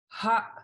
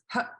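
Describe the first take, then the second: First: The vowel is held long. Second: The vowel is short with a high tone. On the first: "a long double A version" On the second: "the shorter one with a single high tone A"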